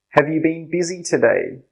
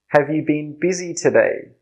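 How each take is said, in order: No difference in how they are said.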